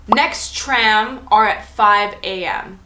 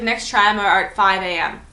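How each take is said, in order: First: Slow mock text read. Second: Said in the usual way. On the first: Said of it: "he says". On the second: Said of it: "he's like".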